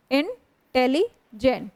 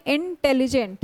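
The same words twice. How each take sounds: First: intelligent slowly in three chunks, इन - tele - gent; syllable groups. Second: Said in the usual way. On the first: Shown as a demonstration. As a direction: clear stops inside intelligent, after इन and tele. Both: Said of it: "मतलब तीन बार वहाँ पे".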